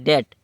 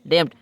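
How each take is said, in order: First: No b/p sound is pronounced before the t. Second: A b/p sound is pronounced before the t. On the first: The speaker calls it right. "जब ये silent बी silent हो जाता है" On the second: The speaker calls it wrong. "वस्तु पढ़ने में आता है डेप्ट"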